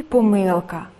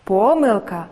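First: Помилка with the stress on мил; помилка pronounced po-MYL-ka; stress on middle syllable. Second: Помилка with the stress on По; Помилка pronounced PO-myl-ka; stress on first syllable. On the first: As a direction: lean on the second syllable of помилка. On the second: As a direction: hit the opening syllable of Помилка. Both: Shown as a demonstration. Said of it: "Слова із подвійним наголосом".

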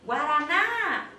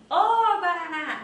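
First: Long loud GUARANÁ, peaking on NÁ; drawn-out gate call with no lead-in; calling just the word. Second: Big high shout on Ô, then quicker GUARANÁ; mock street hail, front-loaded; wrong-way call. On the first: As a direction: call GUARANÁ out slowly, lifting the last syllable. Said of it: "Eu vou chamar só a palavra". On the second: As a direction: hail someone with a loud, high "ô" before GUARANÁ. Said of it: "Eu não vou falar assim". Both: Shown as a demonstration.

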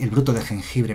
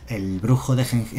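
First: "bruto de jengibre" said cleanly, with the t in "bruto"; corrected name. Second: Misreading "brujo de jeng-" at a slow pace, cut off; slip of the tongue. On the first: Streamer corrects the card name for chat, clean and plain. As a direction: fix it to "bruto", with a clear t sound. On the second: Streamer misreads the card name aloud, a slow slip. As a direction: stumble over "brujo", saying it with a j instead of the t of bruto. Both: Real, not acted. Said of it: "perdón, está bien".

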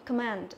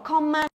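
First: "command" with schwa first, stress on MAND; corrected "command", said softer; correct pronunciation. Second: "command" with a full open O in com; mispronounced "command", no schwa; wrong pronunciation demo. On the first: Shown as a demonstration. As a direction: softly model "command", falling, weak first vowel. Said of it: "âm đầu tiên này thì cũng là âm ơ". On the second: Retold or imitated. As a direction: show the mistaken "command", KOM said in full. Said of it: "Không đọc command là sai".

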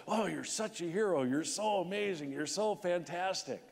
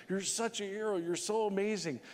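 First: Mock gushing, higher pitched praise; a hint of syrupy interviewer; gushing TV hosts. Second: Mock fawning praise, pitched much higher; hammed-up syrupy host; gushing TV hosts. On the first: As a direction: parody fawning morning TV hosts. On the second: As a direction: mimic badgering interviewers. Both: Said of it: "they're badgering him".

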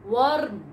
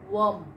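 First: Worm. said as VURM, with a rolled r; Worm. said wrongly, as VURM; common mispronunciation. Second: Worm. said as WUHM, with no r; Worm. said rightly, as WUHM; correct pronunciation. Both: Shown as a demonstration.

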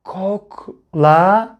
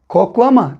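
First: Koklama very slowly as kok, la, ma; syllable by syllable. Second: Said in the usual way. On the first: Shown as a demonstration. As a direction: break Koklama into separate syllables with pauses. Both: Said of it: "Son kelimemize bakıyoruz".

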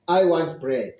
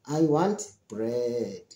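First: Said in the usual way. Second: Low, slow and deliberate, each word separate; drawn-out demonstration of the answer; slow, clear model answer. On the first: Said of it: "What do you want?". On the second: Shown as a demonstration. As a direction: spell out the answer slowly for learners. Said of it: "So that's gonna be your answer".

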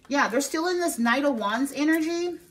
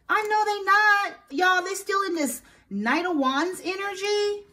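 First: Said in the usual way. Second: Much higher, slow, drawn-out scoff; "Y'all" pulled long and high in a slow scoff; scoffing disbelief. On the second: Real, not acted. Scoffing at the ex's intentions.

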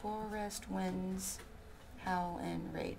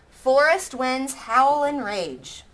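First: Slow, much softer recount. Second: Slow, louder syllable count; first syllable count. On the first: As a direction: quietly recount each syllable. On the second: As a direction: beat out each syllable slowly. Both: Shown as a demonstration. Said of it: "some of these aren't quite right".

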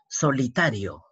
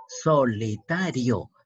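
First: Said in the usual way. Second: Slow, stretched "solitario", so-li-ta-rio; syllable by syllable. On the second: Shown as a demonstration. Teacher showing the diphthong, "solitario" slowly syllable by syllable. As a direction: draw out "solitario" one syllable at a time.

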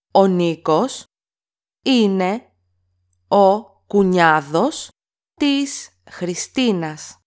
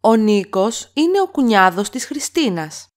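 First: Each word alone with pauses between; slow word-by-word repeat. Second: Said in the usual way. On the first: Shown as a demonstration. Teacher to learners, slow word-by-word model. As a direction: break it up word by word so learners can copy. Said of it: "teacher repeats word by word". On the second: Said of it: "teacher models full sentence".

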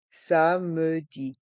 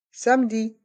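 First: "Samedi" drawn out slowly as sa-me-di; syllable by syllable. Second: Said in the usual way. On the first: Shown as a demonstration. Teacher breaking "Samedi" down for a listening quiz, slow separate syllables. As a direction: say "Samedi" at half speed, sounding the middle e. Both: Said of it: "Écoutez et choisissez".

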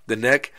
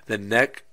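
Both takes have the same delivery.

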